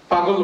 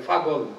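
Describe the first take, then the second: First: Said in the usual way. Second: পাগল said as ফাগল with a breathy ph at the start. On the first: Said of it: "পাগল বলবে না". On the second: Shown as a demonstration. Showing how Cachar speakers say পাগল with ph instead of p. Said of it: "পকে ফ উচ্চারণ করে।".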